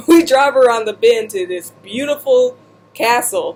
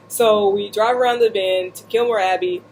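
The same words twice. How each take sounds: First: Laughing. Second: Said in the usual way. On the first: Real, not acted. Retelling, laughing.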